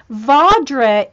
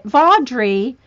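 First: Vaudrey with a short -reh ending, loud and falling; pronunciation take. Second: Vaudrey ending in a clear -ree, rising; corrected pronunciation. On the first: Host settling the name from notes, first try ending -reh. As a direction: say Vaudrey loudly, clipping the last vowel. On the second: Host settling the name from notes, correcting to VAWD-ree. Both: Real, not acted. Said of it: "I'm putting the pronunciations".

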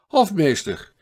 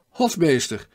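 First: Hofmeester! called louder and higher, falling at the end; impatient second hail, louder still; calling louder. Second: Loud first call of Hofmeester!, higher, falling at the end; first hail to the steward, loud; calling out with a foreign accent. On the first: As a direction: shout Hofmeester! out, more insistent this time. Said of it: "maar nu wat luider". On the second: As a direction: call Hofmeester! across the deck with a foreign lilt. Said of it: "riep hij met een tongval die duidelijk de vreemdeling verried". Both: A narrator's reading.

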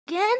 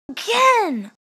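First: "again" rising as a question; disbelieving question. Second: "again" pitched high, then falling; emphatic amazement. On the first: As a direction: ask "again" in amazed disbelief. Disbelief at another legendary. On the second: Repeats it emphatically. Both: Real, not acted.

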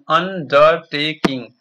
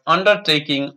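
First: "undertaking" slowly, each syllable split un-der-ta-king; slow syllable-by-syllable "undertaking" for students; syllables spelled out. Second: Said in the usual way. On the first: Shown as a demonstration. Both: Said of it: "Listen to your teacher saying the words".

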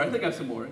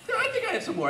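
First: Said in the usual way. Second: Laughing. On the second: Real, not acted. Repeats the line, laughing.

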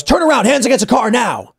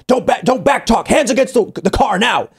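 First: Barked order. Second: Stern order. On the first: Stranger ordering kids against car. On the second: Stranger repeating order to kids. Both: Retold or imitated.

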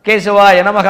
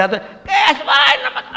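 First: Said in the usual way. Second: High, drawn-out screechy chant; screechy throat. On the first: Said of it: "వాడు ఏమన్నాడో తెలియదు". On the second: Shown as a demonstration. Priest chanting without sipping water, screechy dry-throated voice. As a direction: squawk it out slowly from a dry throat. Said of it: "గీచు గొంతుతోటి".

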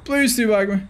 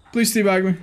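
Both takes have the same delivery.

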